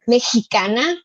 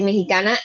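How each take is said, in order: First: It is said in a careful standard accent. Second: It is said in a casual Miami-Venezuelan accent. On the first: The speaker calls it right. "can you say it like this?" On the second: The speaker calls it wrong. "I would say Mexicana"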